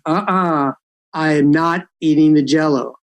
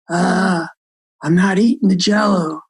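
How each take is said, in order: First: It is said in a somewhat stronger voice. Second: It is said in a weak, soft voice.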